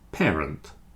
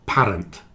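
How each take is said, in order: First: The first syllable sounds like the word pair. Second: The first syllable does not sound like pair. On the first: The speaker calls it right. "It's more like pair" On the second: The speaker calls it wrong. "not parent"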